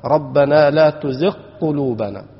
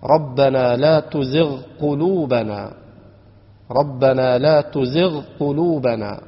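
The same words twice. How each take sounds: First: تزغ قلوبنا with the غ merged into the ق; wrong reading. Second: Slow, with the غ in تزغ and the ق in قلوبنا kept fully apart; correct reading. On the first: Teacher shows students the wrong reading, letters merged together. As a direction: run تزغ into قلوبنا so the غ is swallowed by the ق. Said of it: "ولا تقرأ هكذا". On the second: Teacher shows students the right reading of تزغ قلوبنا, slow and separated. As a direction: say تزغ قلوبنا slowly, ending تزغ on a clear غ before starting قلوبنا. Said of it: "فتكون القراءة هكذا". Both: Shown as a demonstration.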